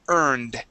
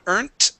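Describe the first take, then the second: First: The word ends with a D sound. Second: The word ends with a T sound. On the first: The speaker calls it right. "here we want to pronounce a D sound instead of a T" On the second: The speaker calls it wrong. "not earned. Okay, that's a T sound"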